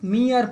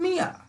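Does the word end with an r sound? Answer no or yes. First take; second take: yes; no. First: The word ends with a clear r sound. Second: The word ends in a vowel, no r. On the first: The speaker calls it wrong. "इसे बहुत लोग मियर पढ़ते हैं, लेकिन मियर तो है नहीं।" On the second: The speaker calls it right. "मिया मतलब मात्र।"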